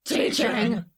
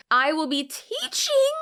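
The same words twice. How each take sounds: First: Said in the usual way. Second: "teaching" said higher, punched as if in caps; mock bold caps reading. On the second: Reading a caption in bold caps, punched emphasis. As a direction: read "teaching" like a shouty all-caps caption. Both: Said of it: "when it's in bold and in caps".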